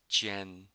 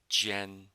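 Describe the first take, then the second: First: The first sound is made with the tongue flat. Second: The first sound is made with the tongue flat.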